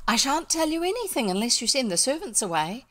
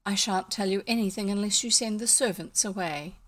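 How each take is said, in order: First: Higher, lilting character voice; girl's refusal. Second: Confidential, restrained refusal; lower tone. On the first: Elfrida insists the servants be sent away, higher lilting refusal. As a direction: refuse firmly with the pitch lifted. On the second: Elfrida bargains out of servants' hearing, lowered discreet tone. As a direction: bring the voice down to a discreet level. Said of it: "in a much lower tone". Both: A narrator's reading.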